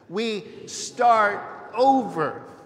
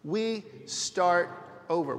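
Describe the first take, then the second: First: It is said with high energy. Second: It is said with ordinary, lower energy.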